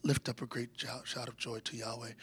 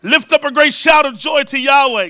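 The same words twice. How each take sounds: First: Mumbled, much softer and lower; timid mumble. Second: Shouted scripture, full voice; loud proclamation. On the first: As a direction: read it like a shy pew-sitter under your breath. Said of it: "We say". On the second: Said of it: "Go ahead, do it". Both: Shown as a demonstration.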